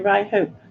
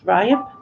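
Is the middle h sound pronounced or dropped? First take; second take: pronounced; dropped. First: The middle h sound is clearly pronounced. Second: The middle h sound is dropped entirely. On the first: The speaker sounds posh. The speaker calls it wrong. "You say Ryhope. Are you posh like Mark?" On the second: The speaker sounds local. The speaker calls it right. "It's Ryop"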